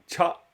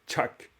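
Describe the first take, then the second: First: The syllable ends without any k sound. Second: The syllable ends with an audible k sound. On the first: The speaker calls it right. "Ça sera tcha" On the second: The speaker calls it wrong. "Ça sera pas tchak"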